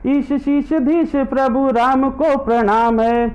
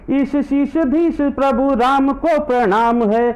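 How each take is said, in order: Both takes have the same delivery.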